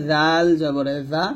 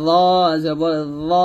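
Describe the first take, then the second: First: জাল light, tongue tip at upper teeth; thin zal. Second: Thick rounded ল, tongue at upper teeth; heavy zo. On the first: Teacher contrasting thin with heavy, thin zal. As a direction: keep the buzz in জাল thin. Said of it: "তবে জালটা পাতলা". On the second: Teacher contrasting heavy with thin, heavy zo. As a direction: make ল heavy and full. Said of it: "heavy করে, মোটা করে". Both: Shown as a demonstration.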